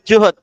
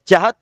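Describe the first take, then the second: First: The vowel after the first consonant is 'u'. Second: The vowel after the first consonant is 'a'. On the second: "fathul jim"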